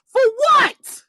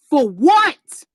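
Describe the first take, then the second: First: A sharp, high, falling "what" in "For what?"; high exasperated for what. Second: Said in the usual way. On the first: Real, not acted. Ranting at followers, high exasperated "For what?". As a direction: fling "For what?" up high in disbelief.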